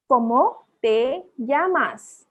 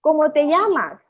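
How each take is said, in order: First: Very slow "¿Cómo te llamas?", broken word by word; teacher's slow word-by-word model; slow pronunciation demo. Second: Said in the usual way. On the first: Shown as a demonstration. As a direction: model "¿Cómo te llamas?" for beginners, each vowel drawn out. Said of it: "vowels को कैसे pronounce करते हैं". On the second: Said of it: "को कैसे बोलते हैं?".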